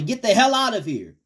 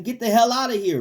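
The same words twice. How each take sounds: First: High, loud commanding rebuke; with authority. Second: High, loud order to the devil; commanding rebuke. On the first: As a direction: order the devil out, no doubt allowed. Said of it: "you gotta say it with authority". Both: Shown as a demonstration.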